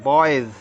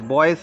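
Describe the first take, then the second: First: The word ends with a z sound. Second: The word ends with an s sound. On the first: The speaker calls it right. "बॉयज जा बोलेंगे इसको" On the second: The speaker calls it wrong. "बॉयज नहीं कहेंगे"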